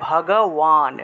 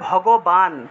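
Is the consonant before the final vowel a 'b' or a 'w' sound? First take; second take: w; b. First: It is said with a 'w' sound, lips apart. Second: It is said with a 'b' sound, lips closed. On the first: This is the Sanskrit pronunciation. "সংস্কৃতে যদি উচ্চারণ করি তাহলে ভগওয়ান" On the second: This is the Bengali pronunciation. "বাংলায় বললে ভগবান"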